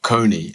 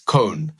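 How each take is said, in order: First: The name ends in a vowel sound. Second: The name ends in an n sound. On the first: The speaker calls it wrong. "his name is not Kony" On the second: The speaker calls it right. "like cognac, he said, but without the ack"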